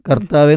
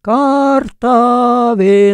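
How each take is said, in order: First: The first vowel is kept short. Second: The first vowel is drawn out long. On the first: The speaker calls it right. "കർത്താവേ എന്നുള്ള വാക്കിനെ" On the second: The speaker calls it wrong. "മലയാളത്തെ കശാപ്പ് ചെയ്തിട്ടാണ് അവരത് പാടുന്നത്"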